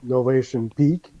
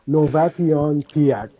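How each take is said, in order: First: Peak is said as one syllable, like peek. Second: Peak is said as two syllables, pee-ak. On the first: The speaker calls it right. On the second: The speaker calls it wrong.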